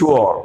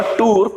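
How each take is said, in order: First: Tour as two sounds, "thoo-aw"; stylish pronunciation. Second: Tour as one syllable "toor"; wrong pronunciation. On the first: Teacher modelling the stylish form for learners, correctly pronounced. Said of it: "ज्यादा आप stylish नहीं बोल पाओगे". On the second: Teacher showing what the word is not, mispronounced. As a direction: say tour with a plain long "oo". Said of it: "it's not tour". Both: Shown as a demonstration.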